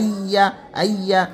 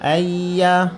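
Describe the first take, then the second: First: The ya sound is pressed hard and cut short. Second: The ya sound flows smoothly and keeps sounding. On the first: The speaker calls it wrong. "চাপ দেওয়া যাবে না" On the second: The speaker calls it right. "স্বাভাবিকভাবে আওয়াজ জারি থাকবে"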